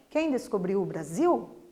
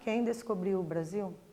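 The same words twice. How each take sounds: First: It ends with a clear question intonation. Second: It ends with flat, statement-like intonation. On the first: The speaker calls it right. "fiz uma entonação final lá, indicando que se trata de uma pergunta e não de uma frase afirmativa" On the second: The speaker calls it wrong. "Não, né?"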